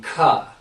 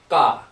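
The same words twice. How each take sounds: First: The k is released with a puff of breath. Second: The k is released with no puff of breath. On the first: "K H would be" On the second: "K would just be ka, no no breath coming out"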